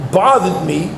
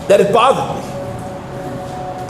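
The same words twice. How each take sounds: First: Said in the usual way. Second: Drawn-out whispered words, very slow. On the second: Real, not acted. Rabbi in shiur lingers on his own unease, whispered slow. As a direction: breathe it out slowly, almost voiceless. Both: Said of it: "And I remember it".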